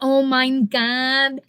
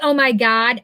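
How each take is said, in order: First: The word 'my' ends with an 'n' sound. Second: The word 'my' ends in a plain vowel. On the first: "that's how my son said it when he was a little kid" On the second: "So I don't say"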